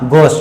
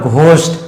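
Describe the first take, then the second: First: The first sound is a plain g. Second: The first sound has a breathy h. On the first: The speaker calls it right. "यहाँ पे एच letter silent है" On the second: The speaker calls it wrong. "That is wrong"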